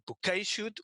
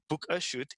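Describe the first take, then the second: First: The first word sounds like 'bouquet'. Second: The first word sounds like 'book a'. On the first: "different people pronounce it either bouquet shoot" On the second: "or book a shoot"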